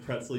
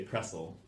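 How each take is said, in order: First: Said in the usual way. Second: "pretzel" said as "pressel"; dropped T. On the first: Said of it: "instead of pretzel". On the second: Shown as a demonstration. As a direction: say "pretzel" without its T. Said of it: "ignore the T".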